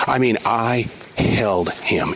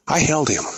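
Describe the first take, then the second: First: "held" drawn out slowly, weighted; slow down and let "held him" land; slow, heartfelt restatement of "I held him"; slow emphatic repeat. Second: Said in the usual way. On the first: Real, not acted.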